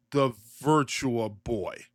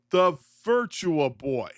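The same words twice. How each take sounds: First: Slow, low, drawn-out reveal; dramatic reveal. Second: Louder, slow repeat; repeated in disbelief. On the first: Announcing the shocking news to viewers, slow and low. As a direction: lets it sink in slowly. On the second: Repeating the news to viewers, louder and slow. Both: Shown as a demonstration. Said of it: "okay, I'll just say it".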